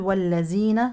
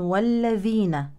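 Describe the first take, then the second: First: The middle consonant is a z sound. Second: The middle consonant is a th sound. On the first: The speaker calls it wrong. "لا تبدل بزاي، لا نقول والذين" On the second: The speaker calls it right. "ولكن والذين"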